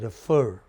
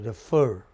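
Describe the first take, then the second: First: The stress is on the second syllable. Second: The same.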